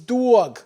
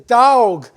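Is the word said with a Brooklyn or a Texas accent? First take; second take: Brooklyn; Texas. First: It is said with a Brooklyn accent. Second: It is said with a North Texas accent. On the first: "where I grew up in Brooklyn, we pronounce this word correctly" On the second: "Here in North Texas"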